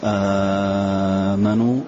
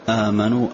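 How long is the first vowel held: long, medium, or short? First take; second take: long; medium. First: The first vowel is held for six counts. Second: The first vowel is held for four counts. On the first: "مد" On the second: "توسط"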